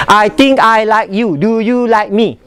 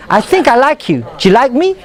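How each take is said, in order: First: Word-by-word, unlinked delivery; choppy, no linking between words; staccato. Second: Linked words with a rising question; connected, flowing speech; fluid and melodic. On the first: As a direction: keep every word separate and even. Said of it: "Staccato is pop". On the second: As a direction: let the words run together smoothly. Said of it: "It's very melodic, very fluid". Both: Shown as a demonstration.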